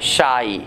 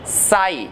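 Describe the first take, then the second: First: शाई with a curled-tongue sh, pitched low; shy pronunciation. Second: साई with a flat-tongue s; sigh pronunciation. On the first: (शाई, मुड़ी जीभ से) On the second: (साई, सपाट जीभ से) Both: Shown as a demonstration. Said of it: "फर्क देख लीजिए दोनों में".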